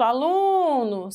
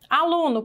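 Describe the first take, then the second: First: "aluno" with a long, drawn-out "lu"; stressed syllable prolonged. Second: Said in the usual way. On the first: Shown as a demonstration. Teacher showing pupils how to find the strong syllable, "lu" prolonged in "aluno". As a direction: stretch the middle syllable of "aluno". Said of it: "o lum foi o que você demorou mais tempo".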